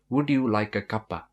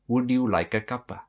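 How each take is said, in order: The two takes are said the same way.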